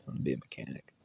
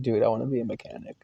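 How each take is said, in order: First: Very soft, low repeat; retold answer, sunk to a murmur; low mumble. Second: Said in the usual way. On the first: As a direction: mumble it under the breath. Repeats answer under his breath.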